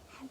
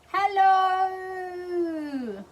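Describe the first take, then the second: First: It is said very quietly. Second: It is said very loudly.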